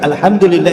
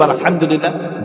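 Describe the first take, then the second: First: The h is a light, plain h sound. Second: The h is a deep, throaty h sound. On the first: It suggests expecting destruction rather than giving praise. The speaker calls it wrong. "if your Ha is not correct" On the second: It means all praise. The speaker calls it right. "But we want to praise Allah"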